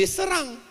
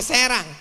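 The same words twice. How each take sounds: First: "serang" with a short dull e; schwa E. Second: "Serang" with a clear e as in bed; open E. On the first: ("serang" dengan E pepet) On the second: ("Serang" dengan E terbuka) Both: Shown as a demonstration. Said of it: "Bukan jadi serang".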